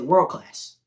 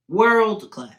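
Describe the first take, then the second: First: Said in the usual way. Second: World class said higher and louder, punching World; emphatic repeat. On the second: Real, not acted. Praising the fighter's grappling, emphatic repeat. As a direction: lean hard on World in World class the second time.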